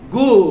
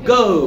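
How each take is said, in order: First: The vowel sounds like 'oo'. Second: The vowel sounds like 'oh'. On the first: The speaker calls it wrong. "Normally উ বলি" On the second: The speaker calls it right. "এখন কি হবে?"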